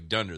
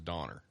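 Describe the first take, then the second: First: The first syllable has an 'uh' vowel. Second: The first syllable has an 'aw' vowel. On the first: This is the original German form of the name. "That's the German one" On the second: This is the later American form of the name. "the American one is Donner"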